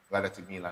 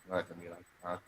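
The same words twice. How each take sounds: First: Tired and quiet. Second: Tired mumble. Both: Real, not acted.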